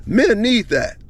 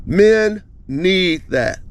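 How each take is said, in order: First: Said in the usual way. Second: "Men need that" drawn out slowly, each word weighted; slow emphatic repeat. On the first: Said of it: "repeated for emphasis". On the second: Shown as a demonstration. Telling viewers what men need, slow and emphatic. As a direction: lean on "Men" and stretch the phrase. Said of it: "repeated slowly for emphasis".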